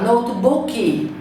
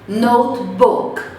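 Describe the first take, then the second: First: An extra vowel syllable is added at the end. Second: The word ends cleanly on a consonant sound. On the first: The speaker calls it wrong. "O brasileiro fala notebook" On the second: The speaker calls it right. "Mesma coisa"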